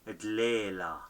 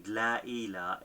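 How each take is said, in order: First: The two words are merged into one word. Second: The two words are said as separate words.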